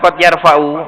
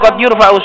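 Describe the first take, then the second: First: The verb's first vowel is 'a'. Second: The verb's first vowel is 'u'. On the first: The tongue itself raises its owner. The speaker calls it wrong. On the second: The owner is raised by something else. The speaker calls it right.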